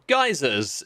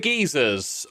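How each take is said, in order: First: It is said in an American accent. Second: It is said in a non-American accent.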